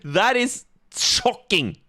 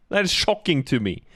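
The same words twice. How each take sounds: First: Slow, high, put-on voice of fake astonishment; mock shock. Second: Said in the usual way. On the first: Host teasing the guest about accents, mock-shocked and slow. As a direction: drag it out in sarcastic disbelief. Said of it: "Kappa, I'm just joking". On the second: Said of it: "I'm just joking".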